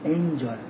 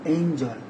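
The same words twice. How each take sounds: No difference in how they are said.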